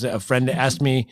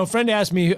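First: Said in the usual way. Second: Friend pushed a touch higher, a joking correction; stress on friend. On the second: Shown as a demonstration. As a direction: lean on the word friend, wink at the listener. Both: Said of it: "no, a friend asked me".

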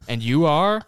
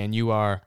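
First: And you are? louder with a high rising question tune. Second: Said in the usual way. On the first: Shown as a demonstration.

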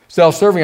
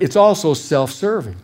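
First: Self-serving repeated louder, hammered home; stress on Self-serving. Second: Said in the usual way. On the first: Shown as a demonstration. Preacher repeating Self-serving to drive it home, louder. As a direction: punch Self-serving as the key word.

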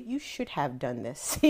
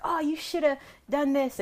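First: "should have" said fully, slow and precise; careful correction. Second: "shoulda" slurred together, high and loose; sloppy casual kid talk. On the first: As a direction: correct the kid word by word, slowly. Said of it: "and he would say". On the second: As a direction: toss it off like a careless kid. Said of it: "we'd say". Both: Retold or imitated.

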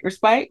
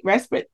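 First: "Respite" with a long i, rhyming with spite; "Respite" ending like the word spite; long-i pronunciation. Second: "Respite" as RES-pit, with a short i; "Respite" with a short second syllable, RES-pit; short-i pronunciation. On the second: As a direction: say "Respite" to end like pit, questioning. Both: Shown as a demonstration. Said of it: "I think I'm pronouncing that right".

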